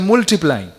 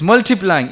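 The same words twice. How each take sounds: First: It is said in a Bradford English accent. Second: It is said in a neutral English accent.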